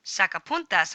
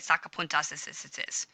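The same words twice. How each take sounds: First: Said in the usual way. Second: "sacapuntas as it is" run together with repeated hissy -is syllables; ridiculous extra endings. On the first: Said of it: "is gonna say just as it is". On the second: Shown as a demonstration. Teacher shows a silly over-pluralized "sacapuntas as it is", stuttering extra endings. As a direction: pile redundant -es endings onto "sacapuntas as it is". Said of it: "That would sound ridiculous".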